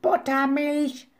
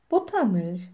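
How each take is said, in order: First: High, drawn-out screech; slow, high-pitched bird squawk; raven screech. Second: Said in the usual way. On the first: A narrator's reading. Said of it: "kreischte Abraxas". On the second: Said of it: "„Buttermilch“, kreischte".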